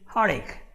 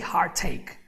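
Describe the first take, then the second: First: The T sound in heart is dropped. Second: The T sound in heart is clearly pronounced. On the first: The speaker calls it right. "I say heartache" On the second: The speaker calls it wrong. "I don't say the T, I don't say heartache"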